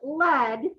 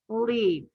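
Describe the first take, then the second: First: The vowel is a short e sound. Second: The vowel is a long ee sound. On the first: It means the writing core of a pencil. "like the, the lead in your pencil broke" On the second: It means to guide or go first. "it should be a vowel team"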